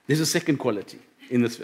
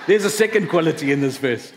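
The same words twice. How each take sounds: First: Low, soft, really moved; emotional. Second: Said in the usual way. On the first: Real, not acted. Preacher resuming the sermon while getting emotional. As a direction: try to carry on while holding back emotion. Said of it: "I'm getting a bit emotional".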